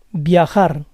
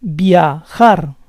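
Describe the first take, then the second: First: Said in the usual way. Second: Viajar split as via-JAR; syllable by syllable. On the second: Shown as a demonstration. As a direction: say Viajar in parts, stressing JAR. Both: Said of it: "stress goes on the last syllable".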